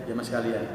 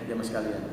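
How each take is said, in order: Both takes have the same delivery.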